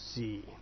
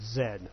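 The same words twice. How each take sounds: First: The letter is said as zee, ending in ee. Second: The letter is said as zed, ending in d. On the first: This is the American name for the letter. "Americans say Z" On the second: This is the British name for the letter. "they call the last letter Z"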